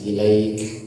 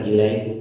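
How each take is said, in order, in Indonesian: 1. Huruf k di akhir diakhiri dengan hembusan napas yang terdengar. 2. Huruf k di akhir berhenti mendadak tanpa hembusan napas. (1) "Kaf itu ada sifat hamasnya" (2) "bukan ilaik"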